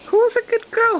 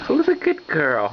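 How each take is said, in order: First: Squeaky high coo. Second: Said in the usual way. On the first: Real, not acted. Mom praising the baby after a spoonful, high coo. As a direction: praise her like a delighted parent.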